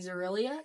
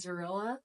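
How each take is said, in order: First: The name ends in '-ilia' with an added 'ee'. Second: The name ends in '-illa' with no extra sound. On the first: This is the intended form of the name. The speaker calls it right. "instead of saying Zarilia" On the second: This is how the reader misread it while reading. The speaker calls it wrong. "I think I kept saying Zarilla"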